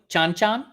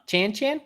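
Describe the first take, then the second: First: Chan Chan as "chahn chahn"; broad "ah" in both words of Chan Chan, questioning; pronunciation query. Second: Chan Chan with the short "a" of "cat"; flat-vowel Chan Chan, rhyming with "man", questioning; pronunciation query. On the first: Host unsure of a song title, Chan Chan said "chahn chahn". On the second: Host trying another reading, Chan Chan rhymed with "man". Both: Shown as a demonstration. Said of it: "How do you pronounce that?".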